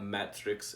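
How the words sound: It is said with a German pronunciation.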